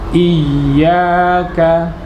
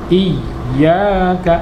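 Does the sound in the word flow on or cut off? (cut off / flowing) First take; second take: flowing; cut off. First: The sound keeps flowing through the word. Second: The sound is pressed hard and cut off. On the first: The speaker calls it right. "Harus tetap ada aliran suara" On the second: The speaker calls it wrong. "ini tidak boleh, tidak benar"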